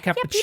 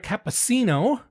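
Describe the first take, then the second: First: The c before i sounds like ch. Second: The c before i sounds like s. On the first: The speaker calls it right. "You say" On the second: The speaker calls it wrong. "just like you don't say"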